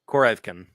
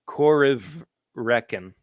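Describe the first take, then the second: First: It is pronounced loosely, departing from the spelling. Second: It is pronounced closely following the written spelling. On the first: "But it's probably like" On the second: "my instinct is to pronounce it slightly more phonetically"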